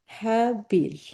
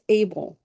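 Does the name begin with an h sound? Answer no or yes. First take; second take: yes; no. First: The name starts with an h sound. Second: The name starts without an h sound. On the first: The speaker calls it right. "but it's supposed to be what?" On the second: The speaker calls it wrong. "We don't pronounce the H in English, so we make it Abel"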